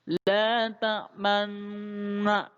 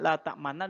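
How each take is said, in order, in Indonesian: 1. Bunyi nun ganda dipisah dengan bibir membulat. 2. Bunyi nun ganda diucapkan biasa, bibir tidak membulat.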